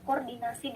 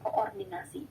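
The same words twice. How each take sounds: First: The double o merges into one syllable. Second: The double o splits into two syllables. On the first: This is the form most people prefer. "masyarakat itu lebih memilih kata koordinasi" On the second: This is the form that follows the spelling. "dibandingkan koordinasi"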